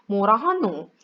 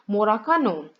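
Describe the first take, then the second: First: The second word begins with an h sound. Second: The second word begins with a k sound. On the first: "dalam dialek Gyeongsang Selatan" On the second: "dalam dialek Gyeongsang Utara"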